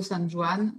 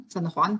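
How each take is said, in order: First: "San Juan" with Juan said as "Joo-an", the French J sound; French-style Juan. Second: "San Juan" with a throaty Spanish-style J, like "Rwan"; corrected Spanish Juan. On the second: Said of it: "Excusez mon accent espagnol". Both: Real, not acted.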